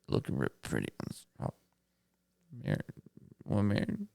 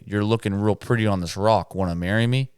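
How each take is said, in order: First: It is said shakily, with a stumble. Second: It is said smoothly and confidently.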